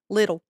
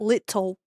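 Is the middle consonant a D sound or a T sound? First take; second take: D sound; T sound. First: The middle consonant sounds like a soft D. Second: The middle consonant is a crisp T. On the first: The speaker calls it right. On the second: The speaker calls it wrong.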